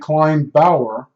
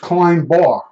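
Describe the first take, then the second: First: It sounds like 'kline' then 'bower', two syllables. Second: It sounds like 'kline' then a single-syllable 'bar'. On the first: This is how an older relative said it. "my grandmother used to say Klein Bauer" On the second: This is how people locally say it. "Here it's Klein Bar"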